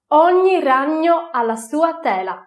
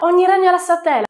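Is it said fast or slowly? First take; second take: slowly; fast. First: It is said slowly. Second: It is said fast.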